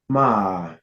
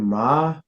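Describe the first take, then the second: First: The pitch falls and then rises. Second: The pitch starts low and rises. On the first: "your falling rising tone" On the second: "your low rising tone"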